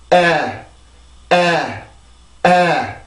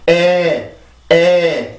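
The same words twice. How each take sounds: First: "에" as English æ with tongue pressed down; falling, pressed æ on "에"; pressed English vowel. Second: "에" as a plain Korean e, tongue not pressed; level, held Korean "에"; unpressed Korean vowel. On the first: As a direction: push the back of the tongue down through "에". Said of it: "눌리면서". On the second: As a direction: say "에" without pushing the tongue down. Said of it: "이게 아니라 눌리면서". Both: Shown as a demonstration.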